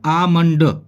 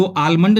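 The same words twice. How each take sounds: First: आमंड with long a straight into m; silent l. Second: आलमंड with a clear l after the first vowel; wrong, l sounded. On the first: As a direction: say आमंड as aa-mand, no l. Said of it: "इसको बोलते हैं आमंड". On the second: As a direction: say आलमंड as aal-mand. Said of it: "आलमंड नहीं बोलते". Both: Shown as a demonstration.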